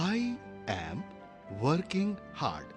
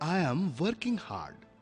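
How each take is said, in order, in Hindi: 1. धीरे बोला गया, हर शब्द अलग-अलग। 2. धाराप्रवाह बोला गया, शब्द आपस में जुड़े हुए। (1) "যদি ধীরে ধীরে বলি" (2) "অনর্গল বা যদি ফ্লুয়েন্টলি বলতে হয়"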